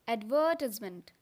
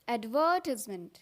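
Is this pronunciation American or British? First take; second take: British; British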